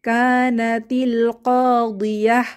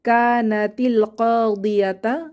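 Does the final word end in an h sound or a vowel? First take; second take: h sound; vowel. First: The final word ends in a soft h sound. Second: The final word ends in a vowel after t. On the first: The reading stops at this word. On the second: The reading continues without stopping.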